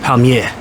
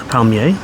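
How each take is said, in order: First: It is said with a New Zealand accent. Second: It is said with a French accent. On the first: "And in Kiwi" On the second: "In French"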